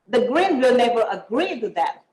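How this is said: The stress is on agree.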